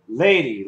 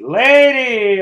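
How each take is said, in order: First: Said in the usual way. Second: LADY called out loud with a falling tune; proud loud announcement of the word Lady. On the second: Shown as a demonstration. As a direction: boom out Lady as the winning answer.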